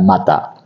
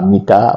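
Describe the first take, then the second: First: The first vowel is an 'a' sound. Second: The first vowel is an 'i' sound. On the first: "bukan mata" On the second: "kita sering selalu dengar dengan kata mita"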